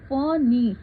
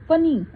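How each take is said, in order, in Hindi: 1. n की आवाज़ लंबी खींची जाती है। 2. n की आवाज़ छोटी है। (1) "कैसे बोलते हैं? फनी" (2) "ऐसे नहीं बोलते हम"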